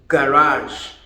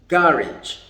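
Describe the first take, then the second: First: It is said with an American pronunciation. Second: It is said with a British pronunciation. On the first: "for the Americans we say garage" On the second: "But the British people say garage"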